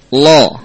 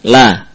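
First: The L is heavy, with a dark vowel. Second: The L is light, with a clear vowel. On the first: The speaker calls it wrong. "ini lam yang tebal" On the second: The speaker calls it right. "Lam dibaca dengan mustafilah atau muraqqaqah, tipis"

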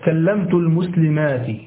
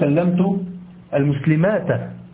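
First: The last word ends with an i vowel. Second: The last word ends without an i vowel. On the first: The speaker calls it right. "تقول مثلا" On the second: The speaker calls it wrong. "لا تقول"

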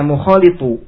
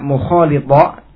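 First: The word ends with a 'u' vowel. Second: The word ends with an 'a' vowel. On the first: The word is read in the nominative case. "bisa dibaca mukhalitu" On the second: The word is joined to the predicate in the accusative case. "Bisa dibaca mukhalita"

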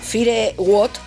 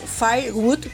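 First: It is read out letter by letter, Spanish-style. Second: It is pronounced the English way. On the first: The speaker calls it wrong. "Leído tal cual" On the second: The speaker calls it right. "pero es Firewood, creo que se pronuncia"

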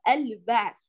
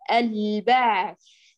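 First: The l sound is clipped and unsteady. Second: The l sound is held steadily for its length. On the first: The speaker calls it wrong. "البعض يقطع صوت اللام المظهرة ويجعل مخرجها يضطرب" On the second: The speaker calls it right. "تعتني بزمن اللام المظهرة"

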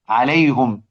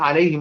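First: The vowel after the h is u. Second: The vowel after the h is i. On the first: "يضم" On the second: "باقي القراء"

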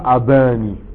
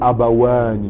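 First: It is said without a w sound. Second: It is said with a w sound. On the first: The speaker calls it wrong. "tu dis pas abani" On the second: The speaker calls it right. "tu dis abawani"

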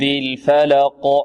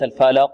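First: The q sound is pronounced strongly. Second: The q sound is pronounced weakly. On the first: The speaker calls it right. "القلق لابد أن تكون قوية" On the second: The speaker calls it wrong. "وليس الفلق"

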